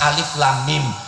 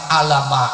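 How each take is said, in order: First: The letters are read out by their full names. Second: The letters are run together as bare sounds. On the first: The speaker calls it right. "kita tetap membacanya dengan nama huruf" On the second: The speaker calls it wrong. "alama itu kan bunyi huruf"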